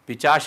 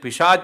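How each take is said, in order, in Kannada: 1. ch ಧ್ವನಿ sh ಧ್ವನಿಗಿಂತ ಮೊದಲು ಬರುತ್ತದೆ. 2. sh ಧ್ವನಿ ch ಧ್ವನಿಗಿಂತ ಮೊದಲು ಬರುತ್ತದೆ. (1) "ಪಿಚಾಶ ಅಲ್ಲ" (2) "ಪಿಶಾಚ ಅಂತಲೇ ಹೇಳಬೇಕು"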